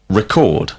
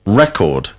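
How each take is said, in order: First: Record with the stress on the second syllable, ri-CORD; verb stress. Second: Record with the stress on the first syllable, REK-ord; noun stress. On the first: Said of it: "whilst record is the verb". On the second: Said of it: "record is the noun". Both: Shown as a demonstration.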